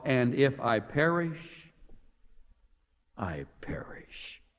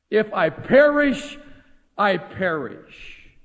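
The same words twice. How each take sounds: First: Slowing and fading down to a whisper on "I perish"; quiet, resigned whisper of acceptance; hushed resolve. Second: "If I perish" louder, higher and slow, then "I perish" settling down very slowly; bold, drawn-out vow; emphatic declaration. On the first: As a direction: let "if I perish, I perish" die away to a breathless whisper. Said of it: "Is that a great answer". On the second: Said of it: "Is this a great woman?". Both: Shown as a demonstration.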